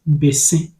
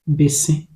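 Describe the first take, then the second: Both takes have the same delivery.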